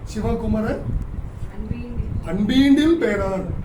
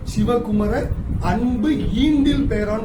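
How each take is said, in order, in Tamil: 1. சொற்கள் ஒன்றோடொன்று இணைந்து ஒரே வடிவமாக ஒலிக்கின்றன. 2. ஒவ்வொரு எல்லையிலும் சொற்கள் தனித்தனியாகப் பிரிந்து ஒலிக்கின்றன.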